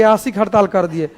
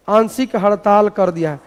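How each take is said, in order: First: आंशिक said as "aasik", without the n; nasal dot dropped. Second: आंशिक said with the nasal n after the long आ; nasal dot sounded. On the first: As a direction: drop the nasal from आंशिक, leaving "aa-sik". (आंशिक को बिना बिंदी के 'आसिक' बोलना) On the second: (आंशिक में अनुनासिक 'न' की आवाज़ साफ़) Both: Shown as a demonstration. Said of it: "अब खाली डॉट हटा देंगे".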